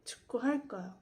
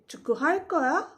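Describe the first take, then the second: First: The pitch does not rise at the end. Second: The pitch rises at the end. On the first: It states that I will play soccer. "these last two times were simply a sentence" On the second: It asks whether you will play soccer. "to ask this as a question"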